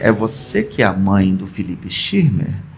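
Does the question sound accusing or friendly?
accusing. The question sounds accusing and unfriendly. The child has hurt someone. "Mas quando vem assim: ... Será que ele mordeu ou bateu"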